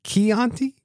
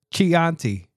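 First: Chianti said with a hard "k", kee-AHN-tee, rising like a question; unsure corrected pronunciation. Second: Chianti said with a "ch" as in cheese, chee-AHN-tee; mispronounced wine name. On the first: Host tries the fix, asking Chianti with a hard "k". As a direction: Chianti with a "k" sound, asked uncertainly. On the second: Host rereads his own mispronunciation, Chianti with a "ch" as in cheese. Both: Shown as a demonstration. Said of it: "I still don't know how to say it".

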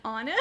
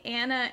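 First: "Anna" said as AW-nuh; Awna pronunciation. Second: "Anna" with the a of "cat"; short-a Anna. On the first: Listing name variants, "Anna" as AW-nuh. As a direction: open the first vowel of "Anna" to "ah", like "awn". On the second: Listing name variants, "Anna" with short a. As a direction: say "Anna" with a flat short first vowel, as in "Annie". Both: Shown as a demonstration. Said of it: "A W N A".

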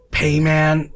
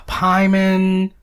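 First: Payman said PAY-man, with a long A; correct pronunciation. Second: Pyman said PIE-mun, drawn out slowly; mispronunciation. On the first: Correcting how people say it, Payman said PAY-man. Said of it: "That is how you say it". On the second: Showing co-host the mistake, Pyman said slowly as PIE-mun. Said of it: "How are people saying it?". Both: Shown as a demonstration.

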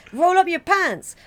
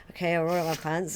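First: High, loud, drawn-out order; host giving orders. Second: Acted agreeing reply, in a low-key voice; compliant house guest. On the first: Retold or imitated. Host making a visitor obey, high loud order. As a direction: play the host demanding it, slow and high. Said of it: "they say". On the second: Guest obeying the host's odd request, low-key compliance. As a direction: play the guest simply giving in. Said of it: "So you're like".

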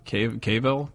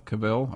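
First: Cavill said as KAY-vul, long A, stress first; trying a pronunciation. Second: Cavill said as kuh-VILL, short first vowel; trying a pronunciation. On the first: Unsure guest testing the name Cavill as KAY-vul. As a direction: tries Cavill with a KAY sound. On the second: Unsure guest retrying the name Cavill as kuh-VILL. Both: Shown as a demonstration. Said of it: "how do you pronounce it?".

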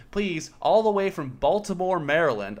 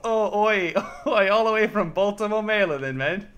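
First: Put-on first British accent try. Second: Higher, louder mock Cockney British accent; hammed-up British accent. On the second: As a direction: overdo a bad British accent with "oi". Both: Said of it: "doing a British accent to represent Baltimore".

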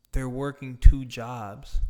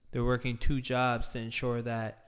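First: Louder, slower stress on "they're working two jobs"; emphatic. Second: Said in the usual way. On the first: Real, not acted. To viewers about struggling parents, "they're working two jobs" slow and loud.

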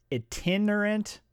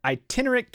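First: "Itinerant" begun with a short i, ih-TIN; tentative pronunciation. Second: "Itinerant" begun with a long i, eye-TIN; corrected pronunciation. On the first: Reader struggling with a word, "Itinerant" with short first i. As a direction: say "Itinerant" starting like "it". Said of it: "I can't say the word". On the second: Reader retrying after spelling it, "Itinerant" as eye-TIN. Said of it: "what is that word?". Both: Real, not acted.

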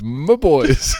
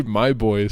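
First: Put-on louder, laughing "my boys"; doting mom voice. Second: Said in the usual way. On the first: Shown as a demonstration. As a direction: coo "boys" fondly. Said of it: "She says". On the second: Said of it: "She doesn't even say".

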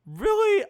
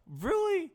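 First: Very high, loud disbelief; loud, high incredulous reproach; louder incredulity. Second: High-pitched, falling disbelief; high incredulous reproach; incredulous question. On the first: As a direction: raise pitch and volume sharply in disbelief. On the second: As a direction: say it way up high, without extra volume. Breaks off in disbelief at interruption. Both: Real, not acted.

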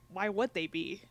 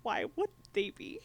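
First: Said in the usual way. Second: "Why would they be?" echoed much higher, disbelieving; incredulous echo. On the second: Retold or imitated. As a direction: repeat it back in shocked disbelief. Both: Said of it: "And she was like".

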